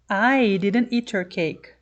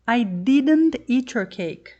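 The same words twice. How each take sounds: First: The word "I" carries the main stress. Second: The word "didn't" carries the main stress. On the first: Someone else ate the cake. "somebody else ate your cake, not me" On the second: The denial is insisted upon. "I've told you I didn't eat your cake, so stop saying I did"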